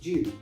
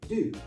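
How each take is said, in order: First: It is said with a British pronunciation. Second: It is said with an American pronunciation. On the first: "In British English, you're more likely to hear it as" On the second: "In American English, it's more likely"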